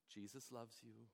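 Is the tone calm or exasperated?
calm. The tone is gentle and calm. The child is comforted and forgiven.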